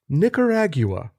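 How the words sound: It is said in a British accent.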